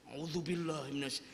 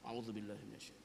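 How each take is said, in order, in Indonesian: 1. Diucapkan dengan keras, dekat dengan mikrofon. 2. Diucapkan dengan pelan, hampir berbisik. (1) "Ini mau kagak deketin mic"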